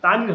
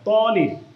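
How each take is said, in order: First: The syllable after sh-ai sounds like 'ta'. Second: The syllable after sh-ai sounds like 'to'. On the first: The speaker calls it wrong. "না তানির হবে না" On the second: The speaker calls it right.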